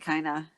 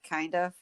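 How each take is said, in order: First: The words are blended into one reduced word. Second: Both words are said fully and separately. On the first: "I say kinda" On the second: "instead of kind of"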